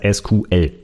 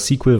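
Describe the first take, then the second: First: It is spelled out as three separate letters. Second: It is said as one short word, like sequel.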